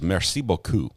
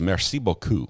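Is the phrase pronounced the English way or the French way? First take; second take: French; French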